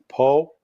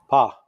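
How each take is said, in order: First: The syllable has an 'oh' vowel. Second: The syllable has an 'ah' vowel. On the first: This is how English speakers read the spelling. "we normally will pronounce things like Po" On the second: This is how it is said in Russian. "in Russian it's pronounced Ah"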